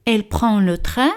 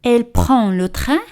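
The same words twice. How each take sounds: The two takes are said the same way.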